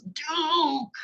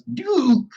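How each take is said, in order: First: Very high, drawn-out scolding cry; hammed-up angry call, pitched way up; mock really mad. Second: High, loud call to a dog; father's first sharp scolding shout. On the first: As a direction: play an exasperated father yelling at the dog. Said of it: "the father gets really mad this time". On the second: Acted.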